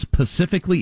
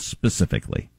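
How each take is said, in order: First: The word starts with a p sound, without s. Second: The word starts with an s sound. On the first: The speaker calls it wrong. "Top of it is specifically instead of" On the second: The speaker calls it right. "instead of specifically"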